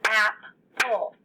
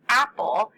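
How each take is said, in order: First: "Apple" split into two beats with a gap; two separate syllables in "Apple"; broken into syllables. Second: Said in the usual way. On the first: Shown as a demonstration. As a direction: say "Apple" as ap, pause, ple. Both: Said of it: "how many syllables would that have".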